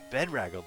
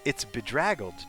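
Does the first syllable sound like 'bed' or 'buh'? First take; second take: bed; buh. First: The first syllable sounds like the word 'bed'. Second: The first syllable is a weak 'buh' sound. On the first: The speaker calls it wrong. "like your hair got messed up in bed" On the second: The speaker calls it right. "It's bedraggled, dude"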